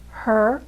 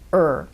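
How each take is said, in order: First: The word is said in full with h. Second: The word is reduced, dropping the h.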